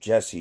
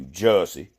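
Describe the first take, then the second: First: Said in the usual way. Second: Jesse drawn out into Jussie in a Southern accent; mock thick Southern pronunciation. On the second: Shown as a demonstration. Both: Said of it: "with a thick Southern accent".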